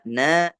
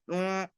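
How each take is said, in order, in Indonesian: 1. Suku kata na diucapkan dengan jelas lewat mulut. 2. Suku kata na diucapkan lewat hidung. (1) "Ketika kita membaca na" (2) "jangan juga membaca na dengan rongga hidung, jadinya neng"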